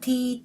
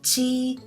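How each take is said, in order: First: It starts with a plain t sound. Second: It starts with a ch sound. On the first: The speaker calls it wrong. "they are not ta, ti" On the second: The speaker calls it right. "They are ta, chi"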